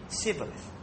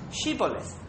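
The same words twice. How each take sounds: First: "Sibboleth" starting with s instead of sh; "Sibboleth", opening like "sit". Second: "Shibboleth" starting with a clear sh; "Shibboleth", opening like "she". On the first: Retold or imitated. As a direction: pronounce "Sibboleth" as Ephraim would, with a plain S. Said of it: "they have a special accent". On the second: Shown as a demonstration. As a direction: pronounce "Shibboleth" with the hushing SH. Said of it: "They couldn't pronounce Shibboleth".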